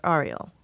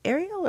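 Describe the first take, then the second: First: Arial starting with an "ah" sound, as in car. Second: Arial starting with an "air" sound. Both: Shown as a demonstration. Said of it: "How do you say that?".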